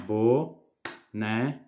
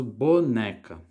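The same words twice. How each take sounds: First: "boneca" split into bo, ne, ca with long pauses; syllable by syllable. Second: Said in the usual way. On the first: Shown as a demonstration. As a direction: say "boneca" very slowly, one syllable per clap. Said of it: "separar as sílabas". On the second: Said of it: "batendo palma junto quando você tá falando".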